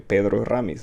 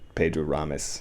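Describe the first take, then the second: First: The name is said the Spanish way. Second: The name is said with an American accent. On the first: "that looks like a Spanish name. I want to say" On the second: "I'll say it like with an English, an American accent"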